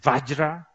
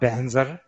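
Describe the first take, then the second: First: The word begins with a v sound. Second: The word begins with 'ban' and ends 'zar'. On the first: This is how people in India say it. "Indians, they say Vajra" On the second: This is how Tibetans say it. "Tibetans got Banzar"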